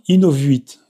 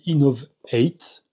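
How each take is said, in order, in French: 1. Le nom se prononce à la française. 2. Le nom se prononce à l'anglaise. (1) "c'est dur à dire Innovuit" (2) "c'est une marque anglaise qui doit d'ailleurs plutôt se prononcer Innovate"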